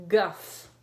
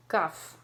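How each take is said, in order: First: Guff said louder, punched for the class; teacher models Guff loudly; modelled read-aloud. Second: Said in the usual way. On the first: Shown as a demonstration. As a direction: hit Guff firmly as the example. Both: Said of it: "Ready, read?".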